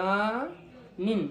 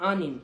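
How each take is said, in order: First: আনিন stretched very slowly, a-nin; drawn-out pronunciation. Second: Said in the usual way. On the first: Shown as a demonstration. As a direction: spell out আনিন slowly for learners. (ধীরে ধীরে টেনে আনিন) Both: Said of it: "এটা কিরগিজে আ উচ্চারণ হয়".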